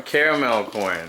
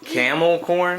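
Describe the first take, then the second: First: "caramel corn" with all three syllables kar-a-mel; "caramel corn" spoken carefully as care-a-mel; corrected caramel. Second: "Camel corn" said as camel, no r syllable; "Camel corn" with a short first word camel; mispronounced caramel. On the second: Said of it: "No, it's called". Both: Real, not acted.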